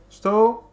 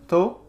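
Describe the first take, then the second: First: The word is said in full, two syllables. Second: The word is shortened to one syllable. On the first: "an abbreviation of estou, which means I am" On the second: "So the abbreviation of that is to"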